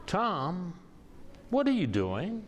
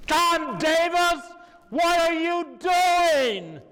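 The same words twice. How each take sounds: First: Imitating a taken-aback colleague, higher-pitched; higher voice, questioning, without shouting; puzzled questioning. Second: Imitating a colleague's outraged holler, very high and slow; top-of-lungs yell. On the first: Colleague questions the poet across the supper table, puzzled. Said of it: "with a strange look on her face". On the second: Colleague scolds the poet at a silent table, full-lunged yell. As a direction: yell it high and loud, dragging out each word. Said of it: "At the top of her lungs".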